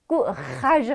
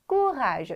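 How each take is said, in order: First: The word is pronounced heavily and forcefully. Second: The word is pronounced lightly and softly. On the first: The speaker calls it wrong. "할 필요 없죠" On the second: The speaker calls it right. "가볍게"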